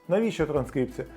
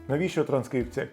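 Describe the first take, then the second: No difference in how they are said.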